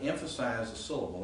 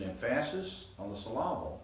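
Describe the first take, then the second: First: Said in the usual way. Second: "emphasis on the syllable" stressed as em-FASS-is on the sill-AH-bl; joke misplaced stress. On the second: Shown as a demonstration. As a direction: put the beat on the second syllable of "emphasis" and of "syllable". Deliberately misplaced stress, joking demonstration.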